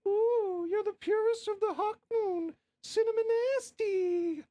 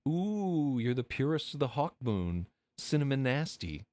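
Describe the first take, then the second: First: It is said in a high falsetto voice. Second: It is said in a normal speaking voice.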